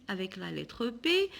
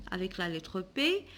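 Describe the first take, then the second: No difference in how they are said.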